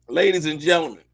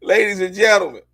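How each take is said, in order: First: Said in the usual way. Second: Loud showman's call to the audience; announcer call. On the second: Acted. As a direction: announce it like a ringmaster. Calls out to audience.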